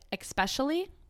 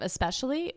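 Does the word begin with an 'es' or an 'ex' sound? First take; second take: ex; es. First: The word begins with an 'ex' sound. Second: The word begins with an 'es' sound. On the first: The speaker calls it wrong. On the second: The speaker calls it right.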